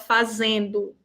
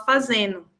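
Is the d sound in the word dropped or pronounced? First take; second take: pronounced; dropped. First: The d sound in the ending is pronounced. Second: The d sound in the ending is dropped. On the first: The speaker calls it right. "A gente não fala fazendo" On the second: The speaker calls it wrong. "a gente fala fazendo"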